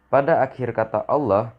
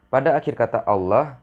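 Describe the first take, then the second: The two takes are said the same way.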